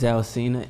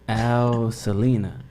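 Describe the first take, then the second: First: The surname ends with a short 'sina' sound. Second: The surname ends with a longer 'selena' sound. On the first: The speaker calls it right. "that's my real name" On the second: The speaker calls it wrong. "they just pronounce it wrong"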